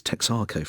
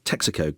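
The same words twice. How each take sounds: First: Texaco said as tex-AR-co; wife's mispronunciation. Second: Texaco said as TEX-a-co; usual pronunciation. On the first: Retold or imitated. Presenter quoting his wife's word, tex-AR-co for Texaco. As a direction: stretch the middle of Texaco to "ar". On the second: Shown as a demonstration. Presenter naming the garages properly, TEX-a-co for Texaco. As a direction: keep the middle of Texaco short. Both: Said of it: "which she called".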